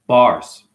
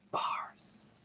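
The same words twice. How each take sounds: First: Louder, punchy one-word call; loud declaration. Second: Breathy whispered punchline. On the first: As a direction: bark it out like a mic drop. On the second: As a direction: drop to a whisper for the reveal. Dramatic hushed one-word punchline. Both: Acted.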